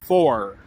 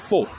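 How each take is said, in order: First: It is said in a Southern US accent. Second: It is said in a British accent. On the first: "in the South they'll say" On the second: "in uh, England I'll hear them say"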